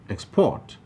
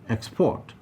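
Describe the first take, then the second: First: The stress is on the second syllable. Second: The same.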